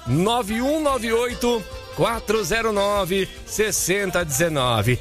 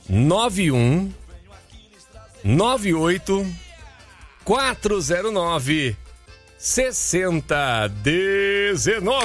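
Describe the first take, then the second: First: The number is said fast. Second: The number is said slowly.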